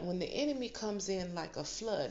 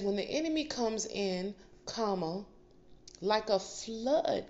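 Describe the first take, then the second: First: It is said without a pause after "comes in." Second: There is a pause after "comes in."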